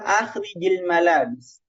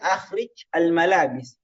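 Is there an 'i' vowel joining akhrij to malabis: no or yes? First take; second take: yes; no. First: The jim takes an i vowel, linking both words. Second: The jim is unvowelled, with no linking vowel. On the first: This is a permitted spoken linking. "Tapi orang bilang akhrijil malabis" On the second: This matches how the phrase is written. "Seharusnya kan akhrij al-malabis"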